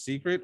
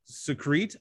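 First: Secret said the normal way, SEE-krit; plain. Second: Secret said as suh-KREET, stress on the end; misspelled secret. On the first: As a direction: secret stressed on the first syllable, SEE-krit. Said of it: "I think she means secret". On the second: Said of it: "but they wrote secret". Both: Shown as a demonstration.

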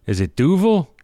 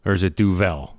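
First: Duvel as DOO-vul, pitched up on the first syllable. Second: Duvel as doo-VELL, with a full "vell"; second-syllable Duvel. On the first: Host unsure how his beer is pronounced, Duvel as DOO-vul. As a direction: say Duvel with a weak, swallowed "vul". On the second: Host offering the other pronunciation, Duvel as doo-VELL. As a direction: offer Duvel with a clear open E at the end. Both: Shown as a demonstration. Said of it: "I believe, pronounced".

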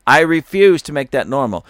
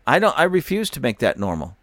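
First: Louder repeat, punching refuse; defiant restatement with refuse stressed. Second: Said in the usual way. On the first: Real, not acted. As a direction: hit the word refuse hard, then let it fall.

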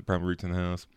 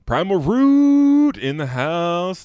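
First: Said in the usual way. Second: Slow, high, loud hype announcer call. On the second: Pretend. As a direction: boom it out like a ring announcer. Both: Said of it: "Waiting for realization".

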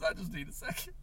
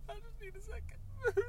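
First: Said in the usual way. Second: Much higher, quiet, breaking into a sob; crying. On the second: Acted. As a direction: let the voice crack on the word second. Voice cracks into crying.

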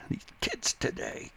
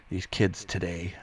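First: Put-on high, strained old-crank caricature; grumpy old-timer. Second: Said in the usual way. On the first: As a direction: play a hammed-up crotchety old man. Old man chasing kids off lawn.

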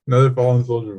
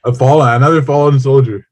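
First: Said in the usual way. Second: Higher, louder mock solemn report of a fallen soldier. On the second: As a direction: announce it like a soldier just went down. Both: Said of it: "Another fallen soldier voice".

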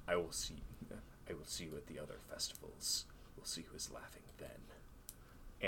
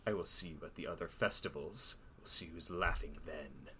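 First: Dramatic whispered threat; stage whisper. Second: Lightly hushed repeat of the threat; a softer retelling, barely whispered; stage whisper. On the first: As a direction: whisper the menace close to the ear. Villain's threat whispered at dance. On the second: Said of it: "stage whisper". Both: Acted.

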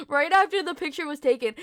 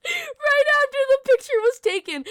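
First: Said in the usual way. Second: Much higher and louder start; excited burst. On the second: Real, not acted. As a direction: blurt it out high.

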